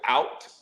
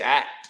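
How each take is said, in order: First: It is said in a general American accent. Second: It is said in a Pittsburgh accent. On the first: The speaker calls it wrong. "if y'all say y'all going out" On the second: The speaker calls it right. "say at"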